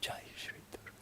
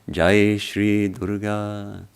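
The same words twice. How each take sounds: First: It is said in a whisper. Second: It is said aloud in full voice.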